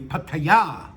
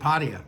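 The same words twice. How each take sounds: First: The stress falls on the last syllable. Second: The stress is not on the last syllable. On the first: "with the accent on the ya" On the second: "I have always pronounced it Pattaya"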